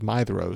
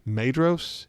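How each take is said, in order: First: The middle consonant is a soft th sound. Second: The middle consonant is a plain d sound. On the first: The speaker calls it right. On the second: The speaker calls it wrong.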